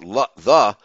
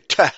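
First: The word begins with a 'th' sound. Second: The word begins with a plain 't' sound. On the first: "like we Americans do" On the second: "They say teh. TEH is how they pronounce it"

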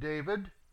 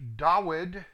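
First: The name is said in its familiar English form. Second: The name is said in a different, older form. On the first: The speaker calls it wrong. "They have changed the spelling and seriously tampered with the pronunciation" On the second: The speaker calls it right. "which is pronounced Dawid"

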